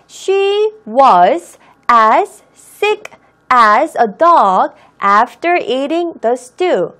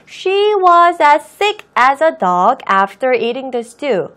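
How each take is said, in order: First: Every sound, including the s of 'as', is pronounced. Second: The s of 'as' is weakened and linked to 'sick'. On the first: The speaker calls it wrong. "모든 발음을 소리 낸다라는 생각으로" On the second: The speaker calls it right. "as의 s를 조금 s 발음을 내가 약하게 하고"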